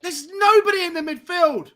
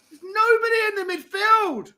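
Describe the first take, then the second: First: High, slow despairing shout; exasperated outcry. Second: Even higher, near-crying wail; anguished wail. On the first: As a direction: cry out at the empty midfield. Team overrun, he despairs. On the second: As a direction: let the voice break in despair. Repeats it, voice cracking. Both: Real, not acted.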